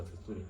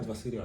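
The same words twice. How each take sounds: First: "adversarial" said ad-ver-sa-TOR-ee-al; alternative pronunciation. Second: "adversarial" said ad-ver-SAIR-ee-al; standard pronunciation. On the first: Lecturer unsure of the term tries it, "adversarial" as ad-ver-sa-tor-ee-al. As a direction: add a "tor" syllable to "adversarial". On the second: Lecturer unsure of the term tries it, "adversarial" as ad-ver-sair-ee-al. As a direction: say "adversarial" without any "tor" syllable. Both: Shown as a demonstration. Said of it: "Is it adversarial or adversarial?".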